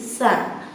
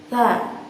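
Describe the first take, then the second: First: The consonant has a very strong hiss. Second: The consonant has only a light hiss. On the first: The speaker calls it wrong. "suara yang sangat besar dengan desis" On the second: The speaker calls it right. "Bagaimana cara tertempelnya? Perhatikan"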